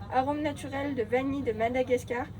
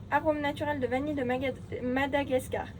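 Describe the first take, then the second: No difference in how they are said.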